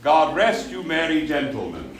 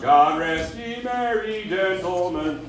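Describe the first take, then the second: First: "you" as a clean "yoo" after a crisp "rest"; "God rest you" with no k sound before "you"; mid-Atlantic you. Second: "rest ye" run together as "reskyou", slow; Texas-style "ye" glued to "rest". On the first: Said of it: "okay? Not God rest ye". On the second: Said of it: "that's Texas". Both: Shown as a demonstration.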